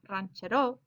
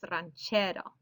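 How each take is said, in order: First: The stress falls off the middle syllable. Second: The stress falls on the middle syllable. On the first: The speaker calls it wrong. "it's not ranchero" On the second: The speaker calls it right. "second to last syllable is getting that stress"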